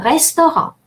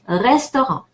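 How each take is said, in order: First: Restaurant with a closed e as in the wrong way; wrong French vowel. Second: Restaurant with the open e, rés-to-ran; correct French vowel. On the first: Teacher showing the wrong vowel in restaurant. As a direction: restaurant said the way we never say it. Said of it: "We never say restaurant". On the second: Teacher modelling the correct restaurant for learners. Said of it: "We always say restaurant". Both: Shown as a demonstration.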